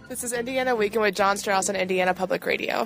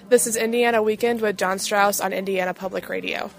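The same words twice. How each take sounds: First: It is read at a faster pace. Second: It is read at a slower pace.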